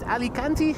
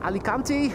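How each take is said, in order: First: The name is said with an English pronunciation. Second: The same.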